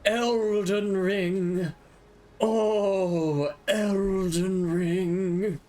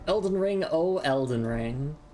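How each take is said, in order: First: It is said in a put-on dramatic character voice. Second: It is said in his ordinary speaking voice.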